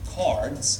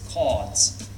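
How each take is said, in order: First: The R sound is pronounced after the vowel. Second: The R sound is dropped after the vowel. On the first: The speaker calls it wrong. "So it's not cards" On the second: The speaker calls it right. "it's cards"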